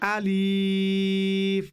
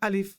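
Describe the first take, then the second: First: The opening vowel is drawn out long. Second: The opening vowel is kept short. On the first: The speaker calls it wrong. "আলিফটাকে আলিফ বলতে পারবো না।" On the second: The speaker calls it right. "বলবো আলিফ।"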